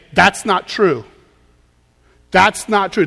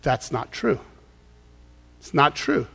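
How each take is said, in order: First: Тут твёрдо: «That's not true», с нажимом на «That's»; a firm, emphatic no to the thought; firm rebuttal. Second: «That's not true» говорит тихо, ниже и мягче; calm, quiet self-correction; quiet rebuttal. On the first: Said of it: "you take it captive and you say". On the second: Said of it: "you need to say". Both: Shown as a demonstration.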